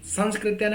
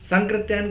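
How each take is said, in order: First: An 's' sound comes before the 'k'. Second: No 's' sound comes before the 'k'. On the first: The speaker calls it wrong. "अगर कोई कहे तो गलत है" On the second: The speaker calls it right. "कहे तो बिल्कुल सही है"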